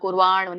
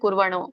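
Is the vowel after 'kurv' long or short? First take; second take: long; short. First: The vowel after 'kurv' is long. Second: The vowel after 'kurv' is short. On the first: The speaker calls it right. "ಆ ಸ್ವರ ಕೂಡಿದೆ ವಾ ಹೇಳ್ಬೇಕಲ್ಲ" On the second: The speaker calls it wrong. "ನೀವೇನ್ ಹೇಳಿದ್ರೆ"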